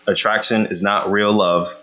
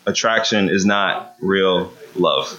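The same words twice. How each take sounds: First: Said in the usual way. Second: "attraction is not real love" slowed right down, every word weighted; slow emphatic repeat. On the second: Shown as a demonstration. Pastor repeats the lesson slowly to the congregation. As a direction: drive the point home slowly. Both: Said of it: "Just gonna keep saying that".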